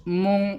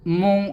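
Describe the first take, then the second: Both takes have the same delivery.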